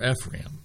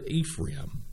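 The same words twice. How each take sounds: First: "Ephraim" with a short E at the start; alternative pronunciation. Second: "Ephraim" with a long EE at the start; first pronunciation. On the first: Preacher offering another way to say it, "Ephraim" with short E. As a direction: say "Ephraim" as EFF-ram. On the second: Preacher reading the name of the city, "Ephraim" said with long EE. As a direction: say "Ephraim" as EE-fram. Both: Shown as a demonstration. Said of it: "however you want to pronounce that".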